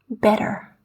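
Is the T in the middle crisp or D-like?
D-like. The middle T sounds soft, like a D. "an American, however, would read these words in quite a different way"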